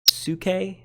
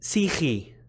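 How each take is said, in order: First: It is said in Erasmian pronunciation. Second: It is said in Modern Greek pronunciation. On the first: "if you use Erasmian pronunciation, I believe you would say something like" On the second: "it's Greek, so I pronounce it"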